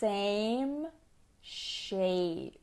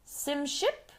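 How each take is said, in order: First: The vowels are long, like 'same shape'. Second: The vowels are short, like 'sim ship'. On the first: The speaker calls it right. "It's that A sound" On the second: The speaker calls it wrong. "her pronunciation of vowels was not good"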